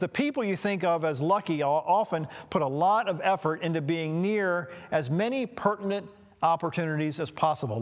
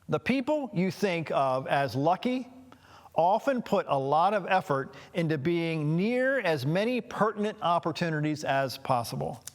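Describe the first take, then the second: First: It is said at a faster pace. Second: It is said at a slower pace.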